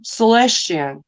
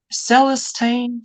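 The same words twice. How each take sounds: First: "Celestian" ending in -shun or -chen; alternative pronunciation. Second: Put-on "Celestine" sounded out slowly, ending in -teen; tentative pronunciation. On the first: Host guessing at a viewer's name, "Celestian" with an -ian ending. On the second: Host trying a viewer's name, "Celestine" said with -teen at the end. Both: Shown as a demonstration. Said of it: "I don't know how to say that".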